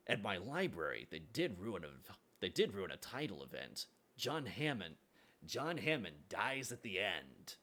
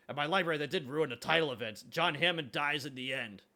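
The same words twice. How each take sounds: First: Morty line, quieter take. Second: Louder, higher, eager Morty delivery; Morty line, mock voiced. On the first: Retold or imitated. Rereading the Morty line, lower and softer deadpan. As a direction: let the spoiler land gently. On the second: Quoting a Morty line to chat, louder and higher. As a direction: announce it like an excited kid. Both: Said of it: "that's a Morty line".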